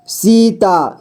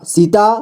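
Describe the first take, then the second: First: Sita drawn out as सी-ता; syllable by syllable. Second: Said in the usual way. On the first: Shown as a demonstration. Teacher showing beginners how to read Sita, syllable by syllable. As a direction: give each half of Sita its own long beat. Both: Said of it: "जोड़ जोड़ करके ही पढ़ना होगा".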